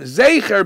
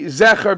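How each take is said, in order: First: The first vowel sounds like 'ay'. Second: The first vowel sounds like 'eh'. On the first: "Zecher B'Tzeirei first" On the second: "and then afterwards say Zecher B'Segel"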